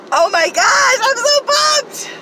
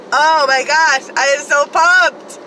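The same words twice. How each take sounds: First: Much higher, loud, slow shout of joy; excited shout. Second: Loud, high and slow pumped cry; excited. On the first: Vlogger at peak thrill over dumpster finds, joyful shout. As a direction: let it all out at the top of your voice. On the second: Vlogger hyping her haul to viewers, loud excited cry. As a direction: savor each word with glee. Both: Real, not acted.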